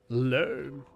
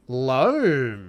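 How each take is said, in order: First: The word is said in a flat tone. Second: The word is said in an excited tone.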